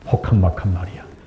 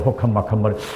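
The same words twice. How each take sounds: First: The phrase is said at an ordinary pace. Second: The phrase is said quickly.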